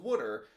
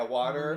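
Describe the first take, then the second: First: Water as "wooder", local Philly vowel; Philly pronunciation. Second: Water with an open "waw" vowel; standard pronunciation. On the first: Co-host retelling handing a visitor a bottle, Philly "wooder" for water. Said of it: "Oh, you guys say it". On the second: Co-host correcting himself for the visitor, standard "waw-ter" for water. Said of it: "both ways". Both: Shown as a demonstration.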